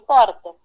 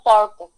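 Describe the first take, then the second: First: The R is said in a Southern Brazilian accent. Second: The R is said in a countryside São Paulo accent.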